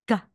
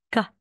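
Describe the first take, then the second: First: The consonant sounds halfway between k and g. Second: The same.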